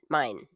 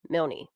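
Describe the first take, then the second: First: The name is said without an L sound. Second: The name is said with an L sound.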